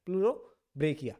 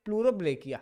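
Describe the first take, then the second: First: Pleurobrachia drawn out syllable by syllable; slow careful naming. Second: Said in the usual way. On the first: Shown as a demonstration. Teacher repeating the name for students, slowly and carefully. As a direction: spell out Pleurobrachia slowly so it sticks.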